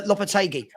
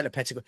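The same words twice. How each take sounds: First: "Lopetegui" as lop-a-TAY-gee; careful "Lopetegui", stress moved onto TAY; corrected pronunciation. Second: "Lopetegui" with stress on PET, lo-PET-a-gee; slipped "Lopetegui", quick and low, middle vowel short; habitual mispronunciation. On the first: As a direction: say "Lopetegui" with a long TAY in the third syllable. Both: Shown as a demonstration. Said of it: "I always say Lopetegui".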